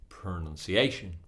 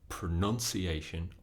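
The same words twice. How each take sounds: First: The stress falls on the fourth syllable. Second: The stress falls away from the fourth syllable. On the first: The speaker calls it right. "On the fourth syllable" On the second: The speaker calls it wrong. "we can't say pronunciation or pronunciation. It's not correct"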